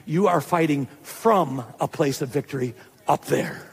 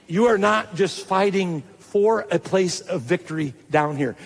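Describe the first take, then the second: First: "from" set apart and leaned on; stress on "from". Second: "for" set apart and leaned on; stress on "for". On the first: Preacher giving congregation their true position, stressing "from". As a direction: lean hard on "from" as the answer. Contrasts fighting from with for. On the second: Preacher correcting how believers see the battle, stressing "for". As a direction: lean hard on "for" to set up a contrast. Contrasts fighting for with from. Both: Shown as a demonstration.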